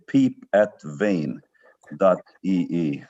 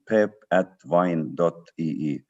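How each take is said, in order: First: The name is said with American vowel sounds. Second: The name is said with Estonian vowel sounds. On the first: This is how Americans say it. "or as you Americans would say" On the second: This is how the owner's own people say it. "We, we pronounce it a bit differently"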